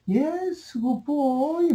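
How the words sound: It is said in a warm, encouraging tone. The speaker is encouraging the child. "막 이렇게 얘기하는 거야"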